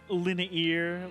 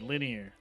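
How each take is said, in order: First: The word is said with three syllables. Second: The word is said with two syllables. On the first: The speaker calls it wrong. "that just sounds wrong to me" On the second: The speaker calls it right. "Two syllable word"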